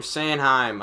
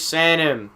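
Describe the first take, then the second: First: "Sanheim" said as SAN-hime, rhyming with time; unsure pronunciation. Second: "Sanheim" said as SAN-um, weak ending; unsure pronunciation. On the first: Announcer correcting himself on a name, "Sanheim" as SAN-hime. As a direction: say "Sanheim" with a full "hime" ending. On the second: Announcer guessing a player's name, "Sanheim" as SAN-um. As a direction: say "Sanheim" with the h dropped. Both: Real, not acted. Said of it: "I don't know".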